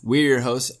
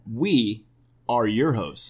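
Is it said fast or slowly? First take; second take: fast; slowly. First: It is said fast. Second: It is said slowly.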